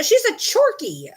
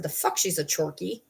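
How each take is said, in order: First: High, drawn-out mock seller voice; mock sales claim, pitched way up; imitated sellers. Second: Low, quieter disbelieving retort; dry retold comeback, pitch dropped; retold skeptical retort. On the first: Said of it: "they said". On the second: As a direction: challenge the claim, low and unimpressed. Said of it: "I said".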